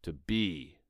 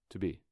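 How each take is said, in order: First: To be hit hard on both words; double-underlined To be, heavily stressed; strong emphasis. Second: Said in the usual way. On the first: Shown as a demonstration. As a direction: lean fully into To be. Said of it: "That might sound something like this". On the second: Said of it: "if I didn't do any underlines".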